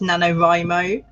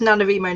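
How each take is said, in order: First: The third syllable sounds like 'rye'. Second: The third syllable sounds like 'ree'. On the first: The speaker calls it right. "like writing" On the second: The speaker calls it wrong. "I just started saying Remo"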